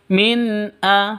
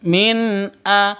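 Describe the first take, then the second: No difference in how they are said.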